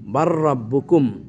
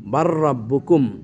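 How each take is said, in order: First: The L sound merges into a doubled R. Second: The L sound merges into a doubled R.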